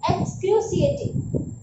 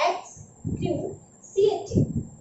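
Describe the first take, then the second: First: Said in the usual way. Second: "Excruciating" breathed out very slowly, each syllable stretched, rising at the end; slow whispered model. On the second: Shown as a demonstration. Teacher slowly whispering "Excruciating" so students can copy. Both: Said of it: "you can read it".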